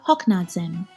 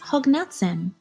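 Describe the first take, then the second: First: It is said with 'k' and 'dz', Western Armenian. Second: It is said with 'g' and 'ts', Eastern Armenian.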